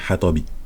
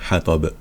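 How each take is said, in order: First: The word ends with a short final i vowel. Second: The word ends on a consonant with no final vowel. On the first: The word is read in full without pausing. "si on lit comme ça, ben, juste pour apprendre, c'est hatabi" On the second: The reader pauses on this word at a stop. "on va s'arrêter sur le mot, donc ça devient une soukoun"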